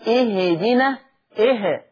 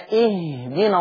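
First: The silent h is moved with an added vowel. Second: The silent h is held still without a vowel. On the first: The speaker calls it wrong. "ولا تحركه كأنعم تهدنا" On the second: The speaker calls it right. "وحقق السكونة فيما سكنة"

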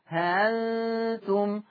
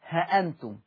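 First: The hamza is softened between a glottal stop and alif. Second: Short 'ha' with no long vowel, then hamza. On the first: "التسهيل بين الهمزة والألف" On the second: "بحذف الألف هكذا ها أنتم من غير ألف"

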